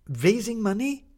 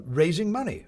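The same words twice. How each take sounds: First: Incredulous. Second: Said in the usual way. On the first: Acted. Maddie incredulous echo.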